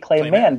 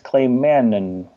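First: The surname is said as one syllable. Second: The surname is said as two syllables. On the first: The speaker calls it wrong. "I always say Clay Man" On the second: The speaker calls it right. "you pronounce the second N"

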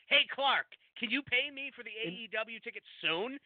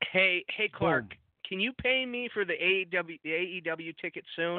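First: The request is read in a sarcastic tone. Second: The request is read in a plain tone.

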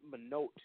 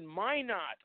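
First: Minot is said in a Canadian way. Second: Minot is said in the local way. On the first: Visitors from outside the state say it this way. "they always used to pronounce it Minot" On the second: People from the state say it this way. "you mean Minot"

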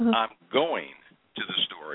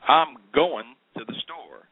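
First: Every syllable and consonant is fully pronounced. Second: Syllables and consonants are dropped and run together. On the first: The speaker calls it right. "instead of" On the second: The speaker calls it wrong. "If you're a lazy speaker, you're going to do things like say"

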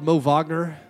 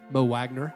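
First: The name is given a German-style pronunciation. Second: The name is given a plain English pronunciation. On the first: The speaker calls it wrong. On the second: The speaker calls it right.

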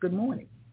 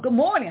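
First: The greeting is said plainly, without much energy. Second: The greeting is said brightly, with lively energy. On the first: A minimal, routine greeting. "can be like just good morning" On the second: An energetic, engaging greeting. "The word tone and inflection can be, wow"

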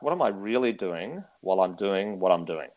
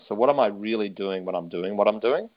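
First: It is said slowly. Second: It is said at normal speed.

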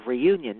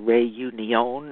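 First: The name is said with English pronunciation. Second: The name is said with French-style pronunciation. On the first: The speaker calls it wrong. "that is my English pronunciation" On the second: The speaker calls it right. "I'm sure they say it much better than that. Probably"

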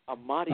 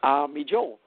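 First: The name sounds like "Amadeo". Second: The name sounds like "Army Joe". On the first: The speaker calls it right. "It was Amadeo" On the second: The speaker calls it wrong. "People say Army Joe, but it was not Army Joe"

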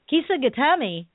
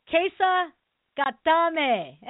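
First: The first syllable sounds like 'kee'. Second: The first syllable sounds like 'keh'. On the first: The speaker calls it wrong. "when people say something like Kisa Gatami" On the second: The speaker calls it right. "Japanese is not that hard, folks. It's pretty much, you know, say the syllables"

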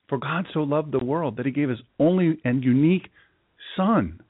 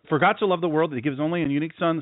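First: It is read at a slower pace. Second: It is read quickly, rushed through.

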